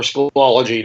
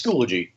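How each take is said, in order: First: Schoology said skoo-AH-luh-jee; Schoology with a full "ol" as in "ology"; alternative pronunciation. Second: Schoology said SKOO-luh-jee; Schoology with an unstressed, reduced middle vowel; first pronunciation. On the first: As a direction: stress the second syllable of Schoology, an open AH. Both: Shown as a demonstration. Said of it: "depending on how you pronounce it".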